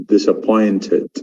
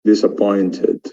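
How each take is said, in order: First: It is said with a British accent. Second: It is said with a British accent.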